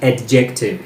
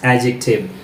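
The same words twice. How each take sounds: First: The D sound is clearly pronounced. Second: The D sound is left silent. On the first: The speaker calls it wrong. "It's not adjective" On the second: The speaker calls it right. "it's adjective. Whenever there is D and J together, so D is silent"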